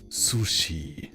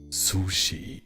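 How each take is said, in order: First: It is said strongly, with a German accent. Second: The same.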